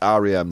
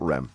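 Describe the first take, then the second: First: The letters are named as in English. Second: The letters are named as in Spanish. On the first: The speaker calls it right. "is pronounced R E M" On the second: The speaker calls it wrong. "not R E M, guys"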